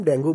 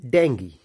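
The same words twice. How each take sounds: First: डेंगू ending in "oo"; Hindi pronunciation. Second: Low डेंगी ending in "ee"; correct pronunciation. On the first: Teacher showing the Hindi name, Hindi pronunciation. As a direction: say डेंगू as "den-goo". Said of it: "Hindi में तो हम डेंगू बोलते हैं". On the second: Teacher giving the English form, correct pronunciation. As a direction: say डेंगी as "den-gee", falling. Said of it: "सही pronunciation बोलेंगे". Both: Shown as a demonstration.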